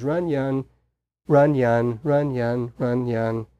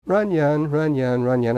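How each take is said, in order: First: "run, yun" as two separate syllables with a pause between; imitated repeated syllables. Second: "Runyon" run together as one word, stress on the first syllable; blended into one word. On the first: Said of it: "he kept saying these two syllables". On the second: Retold or imitated. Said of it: "that's what he kept repeating".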